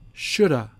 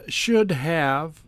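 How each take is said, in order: First: The words blend into a quick reduced 'shoulda'. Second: Both words are said fully and distinctly.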